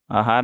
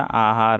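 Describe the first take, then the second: First: आहार as "ahaar"; short first vowel. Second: आहार with a drawn-out opening "aa"; long first vowel. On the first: Teacher showing the mistake, आहार with short first vowel. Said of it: "नहीं होता". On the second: Teacher giving the correct form, आहार with long aa. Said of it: "आहार होता है". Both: Shown as a demonstration.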